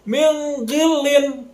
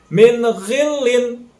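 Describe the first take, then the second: First: The n is held with a nasal hum. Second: The n is pronounced clearly, without hum. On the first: The speaker calls it wrong. "Atau juga didengungkan" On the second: The speaker calls it right. "dibacanya sama harus jelas"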